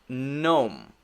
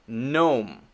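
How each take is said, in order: No difference in how they are said.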